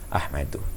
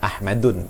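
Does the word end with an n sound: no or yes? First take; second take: no; yes. First: The word ends on a vowel, without n. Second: The word ends with an added n sound. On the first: The speaker calls it right. "hanya boleh dibaca ah Ahmadu" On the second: The speaker calls it wrong. "tidak boleh dibaca e"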